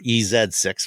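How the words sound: The letter Z is said as 'zed'.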